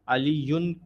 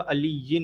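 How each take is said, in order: First: The word ends with an 'un' sound. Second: The word ends with an 'in' sound. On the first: The speaker calls it wrong. "अलीयुन नहीं होगा" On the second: The speaker calls it right. "अलीयिन होगा"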